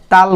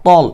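First: "তাল" with a light, open "taal"; thin wrong vowel. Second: "তল" with a heavy t and rounded "tol"; heavy, thick sound. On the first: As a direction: say "তাল" thin, as the common mistake. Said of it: "অনেকে বলে তাল বলে". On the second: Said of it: "একটু মোটা করবেন". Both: Shown as a demonstration.

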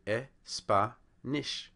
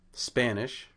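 First: Put-on Espanish broken slowly into e-spa-nish, Spanish accent. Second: Spanish in American accent, starting straight on S; American English pronunciation. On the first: Lecturer imitating native Spanish speaker, Espanish in Spanish accent. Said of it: "put an E in front". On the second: Shown as a demonstration. Lecturer demonstrating an American speaker, Spanish in American accent. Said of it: "how an American English speaker would say".

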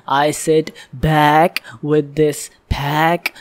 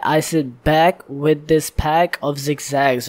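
First: Slow, punching "back" and "pack" on the third syllable; stress on back and pack. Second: Said in the usual way. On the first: Shown as a demonstration. Reactor showing viewers where [name] stresses, slow with "back" and "pack" punched. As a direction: hit "back" and "pack" hard, dragging the line slowly. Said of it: "see how he emphasizes that third syllable". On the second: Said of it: "So the third syllable".

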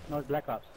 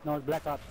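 The two takes are said the same way.

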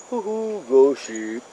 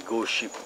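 First: Playful ghostly hoot, starting high; mock-spooky. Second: Said in the usual way. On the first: Vlogger jokes about a ghost ship, mock-spooky.

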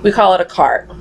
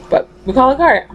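First: Said in the usual way. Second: Higher, faster, with the stress on "cart"; insisting on cart. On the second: Shown as a demonstration. Correcting the grocery cart to just cart, insisting on "cart". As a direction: push "cart" hard and quick.

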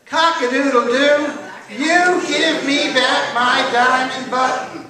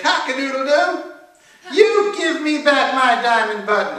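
First: Slow, loud, high crowing chant; drawn-out sing-song rooster demand; rooster call-and-response. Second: High, loud rooster crow; loud, high-pitched rooster character; crowing angry rooster. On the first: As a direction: lead the audience in the rooster's crow. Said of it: "Now this is your part". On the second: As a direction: crow it out as an indignant demand. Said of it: "he was angry". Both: A narrator's reading.

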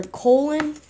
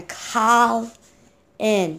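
First: "Colin" with a long o, like "coal-in"; mispronounced name. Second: "Colin" with an open first vowel, like "Collin"; correct name pronunciation. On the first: Showing viewers the wrong way to say the name, "Colin" as "coal-in". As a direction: say "Colin" with the first syllable as "coal". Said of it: "do not pronounce it". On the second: Correcting viewers who mispronounce the name, "Colin" as "Collin". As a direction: say "Colin" slowly, first syllable rhyming with "doll". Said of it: "It's C O L I N". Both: Shown as a demonstration.

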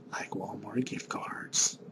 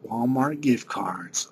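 First: Breathy whispered aside; secretive whisper asking for Walmart gift cards. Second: Said in the usual way. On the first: Real, not acted. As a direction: whisper it like a sly hint. Whispered repeat of the request.

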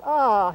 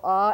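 First: "ah" held as a long vowel; drawn-out ah. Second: Said in the usual way. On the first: Shown as a demonstration. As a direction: really stretch out the vowel in "ah". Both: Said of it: "if you're really drawing it out".

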